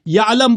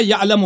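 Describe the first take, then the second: First: یعلم stopped on "m"; mispronunciation quoted. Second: یعلم pronounced "ya'lamu"; correct verb ending. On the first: Retold or imitated. Listing the opponent's mistakes, یعلم without its final vowel. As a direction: say یعلم as "ya'lam", no ending. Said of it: "یعلم بولا ہے". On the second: Shown as a demonstration. Giving the right reading, یعلم with final "-mu". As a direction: end یعلم on a short "u". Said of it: "یعلم ہے".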